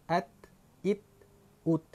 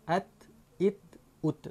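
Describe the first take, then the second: No difference in how they are said.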